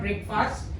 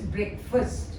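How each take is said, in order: First: The first syllable sounds like the word break. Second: The first syllable sounds like brek, short vowel. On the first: The speaker calls it wrong. "It's not breakfast" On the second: The speaker calls it right. "It is breakfast"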